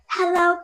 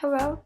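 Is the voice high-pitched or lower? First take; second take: high-pitched; lower. First: It is said in a very high voice. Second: It is said in a lower voice.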